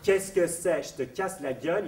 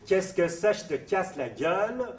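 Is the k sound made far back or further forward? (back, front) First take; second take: front; back. First: The k sounds are made well forward in the mouth. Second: The k sounds are made far back in the mouth. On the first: "il est bien alvéolaire, il n'est pas du tout vélaire" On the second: "je vous fais la caricature"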